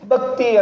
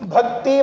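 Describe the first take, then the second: First: The first consonant is said without aspiration. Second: The first consonant is said with strong aspiration. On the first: The speaker calls it wrong. "ಎಲ್ಲಿ ಭ ಅನ್ಬೇಕು ಅಲ್ಲಿ ಬ ಅಂದಿರ್ತೀವಿ" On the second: The speaker calls it right. "ಭಕ್ತಿ ಮಹಾಪ್ರಾಣ"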